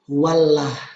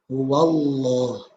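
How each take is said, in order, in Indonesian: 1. Huruf l pada Allah dibaca tipis dan ringan. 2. Huruf l pada Allah dibaca tebal dan gelap. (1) "Bukan dibaca tipis" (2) "Berarti Allahnya dibaca tebal"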